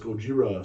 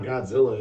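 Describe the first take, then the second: First: The name is said with a 'j' and 'r'. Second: The name is said with a 'dz' and 'l'. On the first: The speaker calls it right. "how they actually say it over in Japan is Gojira" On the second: The speaker calls it wrong. "it's not Godzilla"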